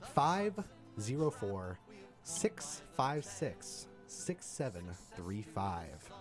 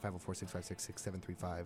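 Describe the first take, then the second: First: The number is read more slowly. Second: The number is read quickly.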